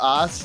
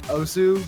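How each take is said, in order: First: The word ends in an 's' sound. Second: The word ends in an 'oo' vowel. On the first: The speaker calls it right. "the proper pronunciation" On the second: The speaker calls it wrong. "so many people that call it Osu"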